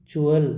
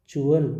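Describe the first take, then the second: No difference in how they are said.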